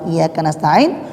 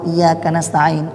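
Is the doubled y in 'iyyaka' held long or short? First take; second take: short; long. First: The y sound is short and light. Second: The doubled y sound is held long. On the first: Only the sun do we ask for help. The speaker calls it wrong. "kalau kita hilangkan tasydid, ringankan" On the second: Only You do we ask for help. The speaker calls it right. "Itu kalau kita baca iya"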